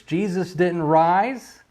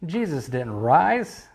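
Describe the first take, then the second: First: Slow, higher mocking voice of doubt; voicing the doubt. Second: Said in the usual way. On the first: Shown as a demonstration. Pastor voices the doubters' claim, slow and mocking. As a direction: drawl it out like the tempter. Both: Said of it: "aimed at doubt and contradiction".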